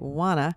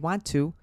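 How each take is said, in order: First: It is reduced to 'wanna', New Jersey style. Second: It is said in full as 'want to'.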